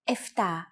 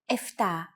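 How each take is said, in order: First: The consonant before the t is an f. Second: The consonant before the t is an f.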